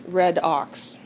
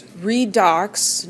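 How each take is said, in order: First: "red ox" as two words, RED OX; wrong pronunciation. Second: "redox" said as REE-dox; correct pronunciation. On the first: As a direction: say "red ox" slowly, short e as in bed. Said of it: "but it's redox". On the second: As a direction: say "redox" with a long ee, slowly and emphatically. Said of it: "not red ox". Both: Shown as a demonstration.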